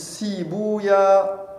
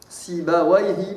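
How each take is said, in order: First: The name ends with the sound 'oya'. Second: The name ends with the sound 'wayh'. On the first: This reading avoids a syllable said to be a devil's name. "au lieu de dire Wayh, ils disent euh, Ouya" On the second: This is the most widely known reading. "le mashhour, c'est qu'on lit avec Wayh"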